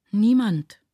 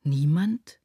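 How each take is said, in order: First: Put-on higher, louder child's answer, falling at the end; lightly acted flustered child, no real stutter; stammering child. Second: NIEMAND repeated as a question, rising at the end; questioning echo. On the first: Child answering who looks after him, lightly stammering. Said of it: "stotterte das Kind". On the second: Mother repeating the child's answer, "Niemand" as a rising question. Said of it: "wiederholte sie". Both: A narrator's reading.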